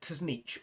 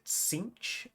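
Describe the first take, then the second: First: The name begins with a TS sound. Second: The name begins with a plain S sound. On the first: This is how the speaker used to say it. "I used to pronounce it Tznich all my life" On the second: This is the official pronunciation. "they pronounced it Sinch"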